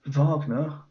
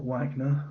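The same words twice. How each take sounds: First: Wagner with a V and long ah, VAHG-ner; German pronunciation. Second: Wagner with English W, WAG-ner; American pronunciation. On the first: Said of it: "that's how we say it". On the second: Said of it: "not Wagner". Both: Shown as a demonstration.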